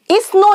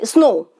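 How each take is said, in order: First: इस स्नो run together as "is-no", a vowel before the s; wrong इस स्नो with an extra "i" in front; added initial vowel. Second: Said in the usual way. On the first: Shown as a demonstration. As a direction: mispronounce snow as इस स्नो, "is-no", in two syllables. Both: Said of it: "इस स्नो नहीं कहते".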